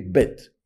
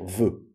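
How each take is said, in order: First: It begins with a hard b sound. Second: It begins with a soft v sound. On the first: The letter carries a dagesh. "Quand vous avez un bête avec un dagesh, vous le prononcez bête" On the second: The letter has no dagesh. "Bête sans dagesh, ça va devenir ve"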